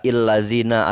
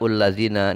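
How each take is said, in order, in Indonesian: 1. Kata ini diawali dengan vokal i. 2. Kata ini diawali dengan vokal u. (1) "Tidak illazina" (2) "tidak ullazina"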